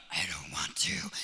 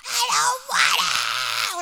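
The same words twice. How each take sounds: First: Strained, voiceless mock tantrum; harsh whispered whine of an angry child; child losing it. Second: Slow, drawn-out tantrum yell; loud, high, wailing mock tantrum; yelling child. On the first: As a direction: imitate a kid starting to lose it through a tight throat. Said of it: "he starts to, like, lose it". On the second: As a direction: imitate a four-year-old screaming in protest. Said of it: "like, yell".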